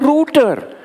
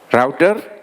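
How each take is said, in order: First: The first vowel sounds like 'oo' in 'root'. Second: The first vowel sounds like 'ow' in 'cow'. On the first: This matches the word route it comes from. "It's a रूटर" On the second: This is how Americans say it. "वो American लोग राउटर बोलते हैं"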